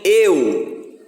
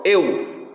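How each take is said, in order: First: EU stretched into two beats, "e-u"; split diphthong. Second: EU in a single gliding syllable; one impulse. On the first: Teacher showing there is no such split, drawn-out e-u. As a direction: pull EU slowly apart as "e-u". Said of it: "Não tem eu". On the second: Teacher proving to pupils it opens once, one-beat eu. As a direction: say EU as one mouth opening. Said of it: "Uma vez só". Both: Shown as a demonstration.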